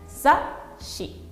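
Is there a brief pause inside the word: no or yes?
yes. There is a short pause before the sh. The word means magazine. The speaker calls it right. "decimos sashi"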